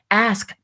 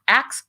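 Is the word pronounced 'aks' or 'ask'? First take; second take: ask; aks. First: The s comes before the k: ask. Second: The s and k sounds are swapped: aks. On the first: It takes effort to say. The speaker calls it right. "Ask takes effort" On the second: It feels easier to say. The speaker calls it wrong. "acts just feels easier to say"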